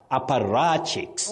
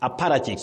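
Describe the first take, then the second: First: The stress falls on the 'ra' syllable. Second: The stress falls on the 'pa' syllable. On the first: The speaker calls it right. "The stress is on the part ra" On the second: The speaker calls it wrong. "mispronounce that word as apparatchiks, apparatchiks with a stress on pa"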